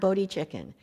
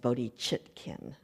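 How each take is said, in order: First: The name ends sounding like 'chicken'. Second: The name ends with a clear 't' in 'chitkin'. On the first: The speaker calls it wrong. "It's not Bodhi chicken" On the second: The speaker calls it right. "very precise enunciation"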